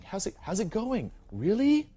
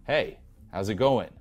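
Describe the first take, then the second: First: "going" and "Really" pitched much higher, "Really" louder and rising; eager, needy, voice climbing up at the ends; mock the supplicating guy who pitches "Really?" up high; rapport-seeking rising tune. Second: "going" falls at the end, slow and louder; relaxed, self-assured "Hey, how's it going" dropping down; falling breaking-rapport tune. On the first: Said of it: "trying for rapport is where your voice goes up at the end". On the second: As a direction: greet her like a friend, tune falling down. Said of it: "your voice should, you know, go down".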